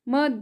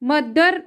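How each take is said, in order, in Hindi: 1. अंतिम र बहुत हल्का है, मुश्किल से सुनाई देता है। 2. अंतिम र साफ़ तौर पर बोला जाता है। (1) "मद होता है। ... आर का साउंड एकदम लाइटली होता है" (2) "मदर नहीं होता"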